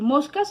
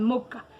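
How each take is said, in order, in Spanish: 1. La s del medio se pronuncia como una s clara. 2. La s del medio se reemplaza por una h aspirada. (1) "en vez de decir moscas" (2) "Le quitaban la S y le ponían la H"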